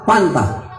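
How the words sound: The word begins with a p sound. "dia bilang apa?"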